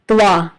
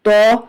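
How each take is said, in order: First: A w-glide follows the t sound. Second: A heavy, full-mouthed vowel with no glide. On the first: The speaker calls it wrong. "ऐसा पढ़ना गलत है" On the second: The speaker calls it right. "मुंह को भर के"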